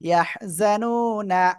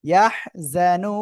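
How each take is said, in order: First: The final n is followed by an a vowel. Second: The word ends on a bare n sound. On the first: The reading continues without stopping. "নুন জবর না" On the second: The reader stops at this word. "ওয়াকফ করলে কি সাকিন হচ্ছে"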